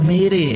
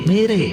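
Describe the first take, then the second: The two takes are said the same way.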